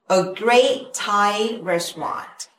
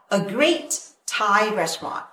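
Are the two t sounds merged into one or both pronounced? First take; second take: merged; both pronounced. First: The two t sounds merge into one. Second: Both t sounds are pronounced separately. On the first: The speaker calls it right. "mình ghép hai cái này thành một" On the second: The speaker calls it wrong. "Không cần thiết phải đọc là"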